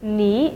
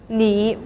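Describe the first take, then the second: First: The syllable is said with a rising tone. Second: The syllable is said with a dipping tone. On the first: "the first syllable is changed to the second tone" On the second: "should be pronounced as the third tone"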